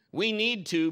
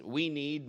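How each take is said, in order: First: "We need to" said higher and louder, pressing on need; wife leaning hard on "need"; pointed wife. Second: Said in the usual way. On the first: Shown as a demonstration. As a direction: hammer "need" like an order to the husband. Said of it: "means, if you're a husband". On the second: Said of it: "what she means".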